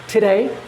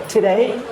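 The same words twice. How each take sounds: No difference in how they are said.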